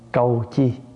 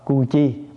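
First: The first syllable has the gliding vowel 'âu'. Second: The first syllable has the plain vowel 'u'. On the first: The speaker calls it right. "chúng ta đọc là gì? Câu chi" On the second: The speaker calls it wrong. "có chỗ không đọc cu chi"

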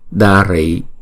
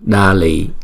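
First: The second syllable starts with an R sound. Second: The second syllable starts with an L sound. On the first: This is the standard reading of the word. "thay vì là đa rị" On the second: This is how Chinese speakers read the word. "người Hoa không phát âm chữ R mà chuyển âm R thành chữ L"

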